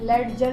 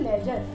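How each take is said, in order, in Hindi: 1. j से पहले d की आवाज़ सुनाई देती है। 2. j से पहले d की कोई आवाज़ सुनाई नहीं देती। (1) "हम लेडजर नहीं पढ़ते" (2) "हम पढ़ते हैं इसको लेजर"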